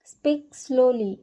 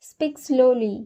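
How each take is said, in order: First: Each word drawn out slowly; slow, careful repeat. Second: Said in the usual way. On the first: Shown as a demonstration. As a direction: say it slowly, like a teacher modelling. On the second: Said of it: "धीरे बात करो।".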